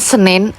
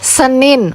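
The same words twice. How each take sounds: First: The vowels sound slanted, with a Javanese accent. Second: The vowels sound neutral and upright. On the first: The speaker calls it wrong. "bukan Senin" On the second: The speaker calls it right. "yang pakai suara tegak tadi"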